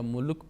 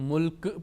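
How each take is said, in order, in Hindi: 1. अंतिम व्यंजन बिना उछाल के काटकर छोड़ा जाता है। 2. अंतिम व्यंजन एक गूंजती हुई उछाल के साथ खत्म होता है। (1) "या मुल्क पढ़ेंगे तो गलत होगा" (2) "अगर इसको हम मुल्क पढ़ेंगे तो कलकला होगा"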